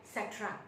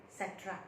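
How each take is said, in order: Both takes have the same delivery.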